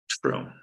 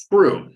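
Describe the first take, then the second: First: Softer, murmured echo; quiet. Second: Punchy, louder agreement; loud emphatic. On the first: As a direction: let it drop, almost to yourself. Repeated agreement, trailing off. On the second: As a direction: hit it hard and firm. Emphatic agreement with super chat. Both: Real, not acted.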